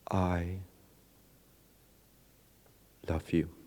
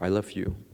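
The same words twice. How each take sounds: First: It is said with a pause inside it. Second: It is said without a pause inside it.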